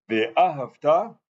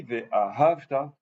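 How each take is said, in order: First: Ve'ahavta slowed, final TA raised and stressed; imperative stress. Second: Ve'ahavta slowed, weight on the middle HAV; past-tense stress. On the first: Teacher to class, showing the imperative, stress on TA of Ve'ahavta. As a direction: land the stress on the last syllable TA of Ve'ahavta. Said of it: "c'est l'impératif". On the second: Teacher to class, showing the past-tense reading, stress on HAV in Ve'ahavta. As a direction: lean on -hav- in Ve'ahavta, not the end. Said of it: "ça veut dire je parle au passé". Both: Shown as a demonstration.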